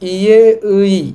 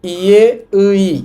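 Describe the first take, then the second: First: The second syllable is pronounced as ui. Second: The same.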